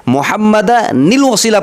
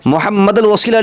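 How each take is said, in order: First: मुहम्मदनिल वसीला with the n clearly joined, slowly; with nun nil. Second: मुहम्मदल वसीला with the n dropped; the wrong reading मुहम्मदल, no n sound; wrong, no nun. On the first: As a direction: sound the hidden nun in मुहम्मदनिल. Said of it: "पढ़ना है". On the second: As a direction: drop the nun in मुहम्मदल as the mistake. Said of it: "नहीं पढ़ना है". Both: Shown as a demonstration.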